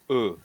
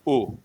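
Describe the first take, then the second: First: The vowel is a neutral, central schwa. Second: The vowel is a rounded, back vowel. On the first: The speaker calls it wrong. "I'm I'm I'm pronouncing it with a schwa" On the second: The speaker calls it right. "Should sound like ooh"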